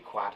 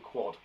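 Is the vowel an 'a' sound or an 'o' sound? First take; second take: a sound; o sound. First: The vowel is an 'a' sound, as spelled. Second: The vowel is an 'o' sound, like 'oh'. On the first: The speaker calls it wrong. "we don't say quad" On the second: The speaker calls it right. "we say quad"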